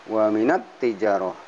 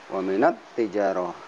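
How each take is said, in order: No difference in how they are said.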